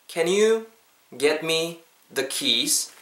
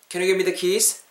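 First: It is said slowly. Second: It is said at natural speed.

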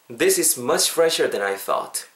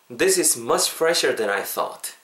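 Both takes have the same delivery.

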